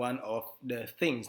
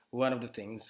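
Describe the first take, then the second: First: The words are said separately. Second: The words are linked together smoothly. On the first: The speaker calls it wrong. "bukan one of the things" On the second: The speaker calls it right. "tapi one of the things ... cenderung me- menyambung semua kata"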